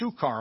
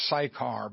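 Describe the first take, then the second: First: The first syllable sounds like 'suk'. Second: The first syllable sounds like 'sigh'. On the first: The speaker calls it right. "but it's Sukkar" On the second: The speaker calls it wrong. "I always pronounce that Sychar"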